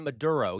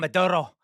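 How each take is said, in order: First: It is said plainly without exaggerated pronunciation. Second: It is said with exaggerated Spanish pronunciation. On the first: The speaker calls it right. "it's Venezuela and Maduro" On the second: The speaker calls it wrong. "You don't have to pronounce it in this exaggerated manner"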